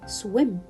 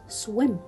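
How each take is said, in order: First: The vowel is a short 'ih' sound. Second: The vowel is a short 'ih' sound.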